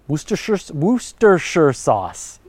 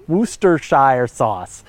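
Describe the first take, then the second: First: Worcestershire said as WOO-ster-sher; careful pronunciation. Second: Worcestershire said slowly as WOO-ster-shire, rhyming with fire; variant pronunciation. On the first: Host working out a sauce's name, careful "sher" pronunciation. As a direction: sound out Worcestershire slowly, ending in "sher". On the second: Host trying the sauce's name another way, slow "shire" pronunciation. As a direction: draw out Worcestershire with a full "shire". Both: Shown as a demonstration. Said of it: "it's pronounced Worcester".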